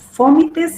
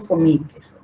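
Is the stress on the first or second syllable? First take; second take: first; second. First: The stress is on the first syllable. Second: The stress is on the second syllable.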